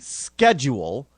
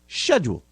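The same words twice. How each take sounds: First: The word is said in a non-British way. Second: The word is said in a British way. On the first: The speaker calls it wrong. "they will look at you like you're a nut job" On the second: The speaker calls it right. "but it's schedule"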